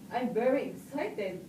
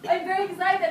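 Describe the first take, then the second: First: It is said flatly, without enthusiasm. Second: It is said with lively, excited enthusiasm.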